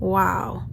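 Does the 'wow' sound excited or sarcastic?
sarcastic. It is said in a sarcastic, unimpressed tone. The information was unwelcome and unnecessary. "มันก็ขึ้นอยู่กับน้ำเสียง"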